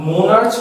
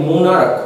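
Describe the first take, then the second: First: মোনার্চ, closing on চ instead of a k; wrong ch ending. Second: মোনার্ক ending in a hard "k" sound; মোনার্ক, closing on ক instead of চ. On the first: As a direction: say মোনার্চ with the final ch as in "church". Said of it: "মোনার্চ বলছি না আমি". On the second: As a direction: say মোনার্ক with the final ch as k. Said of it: "ক আসছে". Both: Shown as a demonstration.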